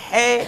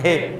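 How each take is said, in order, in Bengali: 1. h টি গলার একদম ভেতর থেকে জোর দিয়ে বলা হয়। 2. h টি একটি হালকা, সাধারণ নিঃশ্বাস। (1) "আরবির মতো হে এভাবে বলার দরকার নাই" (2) "স্বাভাবিক উচ্চারণ হে"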